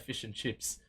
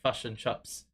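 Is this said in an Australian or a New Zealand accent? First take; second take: Australian; New Zealand. First: The vowels sound like an Australian accent. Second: The vowels sound like a New Zealand accent. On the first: This is how Australians say it. "we'll say" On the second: This is how New Zealanders say it. "They'll say like"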